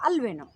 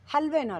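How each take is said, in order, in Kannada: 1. ಪದ ನೇರವಾಗಿ ಸ್ವರದಿಂದ ಶುರುವಾಗುತ್ತದೆ. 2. ಪದ h ಶಬ್ದದಿಂದ ಶುರುವಾಗುತ್ತದೆ. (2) "ಹಲ್ವೇನೋ ಅಲ್ಲ"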